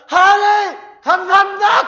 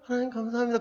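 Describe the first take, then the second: First: It is shouted loudly with joy. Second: It is said quietly and plainly.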